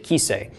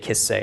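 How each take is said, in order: First: The first vowel is a long e. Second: The first vowel is a short i. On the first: The speaker calls it wrong. "It's easier to say" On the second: The speaker calls it right. "it's hard to say"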